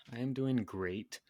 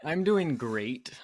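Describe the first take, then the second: First: Said in the usual way. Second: Exaggerated cheer. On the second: Shown as a demonstration.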